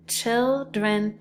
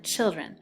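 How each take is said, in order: First: Put-on "children" said as one word, blended from its parts; blending the syllables. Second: Said in the usual way. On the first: Shown as a demonstration. Teacher blends the tapped syllables for the class, carefully. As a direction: run "children" together as one smooth word.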